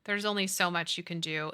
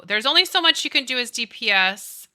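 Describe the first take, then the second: First: Said in the usual way. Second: Louder, punching the words; emphatic. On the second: Real, not acted. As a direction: hammer the point home.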